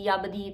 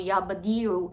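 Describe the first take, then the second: First: It is said quickly with the final vowel dropped. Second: It is said slowly with the final vowel clear. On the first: The speaker calls it wrong. "आप जल्दी में होते हैं ना" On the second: The speaker calls it right. "मैंने इसका तलफ़्फ़ुज़ सही रखना है"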